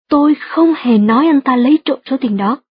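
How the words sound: The words không hề are stressed. The speaker fully denies ever saying it. "nếu bạn nhấn mạnh từ không hề trong câu"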